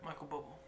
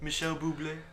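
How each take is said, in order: First: The name is said in a plain English accent. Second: The name is said in a French accent.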